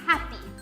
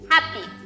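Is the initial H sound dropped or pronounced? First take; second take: pronounced; dropped. First: The word begins with an audible H sound. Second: The word begins without any H sound. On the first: The speaker calls it right. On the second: The speaker calls it wrong.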